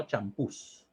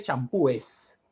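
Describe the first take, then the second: First: "champús" slower and softer, plain s after stressed ú; correct plural champús. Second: "champúes" drawn out with -es after the stressed ú; incorrect plural champúes. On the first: Teacher giving the correct plural, "champús" low and soft with only an s. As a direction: say "champús" low, closing straight from ú to s. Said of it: "No se dice champúes". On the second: Teacher showing students the wrong plural, "champúes" slow with added -es. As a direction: say "champúes" slowly, ending in two vowels ú-es. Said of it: "No se dice". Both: Shown as a demonstration.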